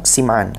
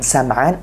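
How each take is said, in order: First: The first vowel of the name sounds like 'i'. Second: The first vowel of the name sounds like 'a'. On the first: "ada yang bilang Sim'an" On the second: "ada yang bilang Sam'an"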